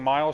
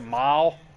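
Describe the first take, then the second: First: It is said in a plain, neutral accent. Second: It is said with a drawling, twangy accent. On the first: "instead of saying mile" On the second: "she'll say mile"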